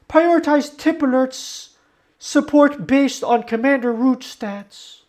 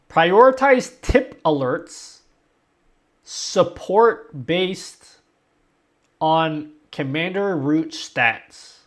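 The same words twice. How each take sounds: First: The sentence is read at a fast pace. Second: The sentence is read at a slow pace.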